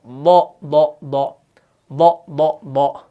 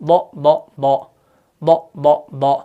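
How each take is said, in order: Both takes have the same delivery.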